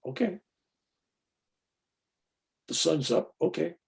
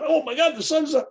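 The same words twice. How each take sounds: First: Unimpressed, softer and matter-of-fact; calm okay. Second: "the sun's up" gushed much higher; hammed-up gasp of amazement at "the sun's up"; mock excitement. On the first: Him after a great experience, calm and unexcited. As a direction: shrug it off: "The sun's up". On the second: The over-thrilled student he refuses to be, hammed-up excitement. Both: Shown as a demonstration.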